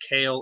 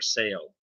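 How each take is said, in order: First: The name begins with a K sound. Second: The name begins with an S sound. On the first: "I don't know if it's Kale or Sale" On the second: "the C like a S"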